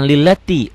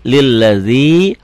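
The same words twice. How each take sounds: First: "lillati" quick, with a hard t. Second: "lilladzi" slow, with soft dz and long i. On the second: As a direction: soften the dz, stretch the end of "lilladzi". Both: Shown as a demonstration. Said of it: "bukan lillati".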